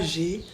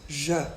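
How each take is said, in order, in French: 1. La voyelle se prononce comme 'ay'. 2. La voyelle se prononce comme un 'uh' court. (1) "pas j'ai" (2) "vraiment je"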